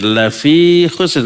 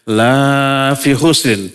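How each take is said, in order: First: The vowel in 'la' is short. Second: The vowel in 'la' is long. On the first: Mankind is surely in loss. The speaker calls it right. "Laknya nggak boleh dibaca panjang" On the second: Mankind is not in loss. The speaker calls it wrong. "Kalau dibaca panjang maknanya sebaliknya"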